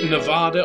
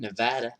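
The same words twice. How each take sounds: First: It is said in a British accent. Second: It is said in an American accent.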